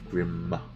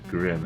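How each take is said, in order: First: A second M sound is pronounced separately. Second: The name ends with a single short M. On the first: The speaker calls it right. "You got to pronounce the second M" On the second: The speaker calls it wrong. "it's not just grim"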